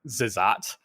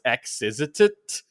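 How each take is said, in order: First: The name begins with a plain 'z' sound. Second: The name begins with the letter name 'eks'. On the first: "when I played it a little older, and from there on, it's always been like Zizat" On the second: "words could begin with X and not just be pronounced X, so his name was X-Izitit"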